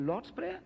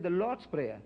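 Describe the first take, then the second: First: "Lord's Prayer?" rising and softer, disbelieving; mock incredulous "Lord's Prayer?"; incredulous question. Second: Said in the usual way. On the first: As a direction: echo it back in doubt. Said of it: "He said". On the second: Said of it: "he said".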